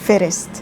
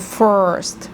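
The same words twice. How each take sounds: First: The r is strong and rolled like Arabic. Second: The r is soft, American style. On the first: The speaker calls it wrong. "مش first" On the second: The speaker calls it right. "so first مش first"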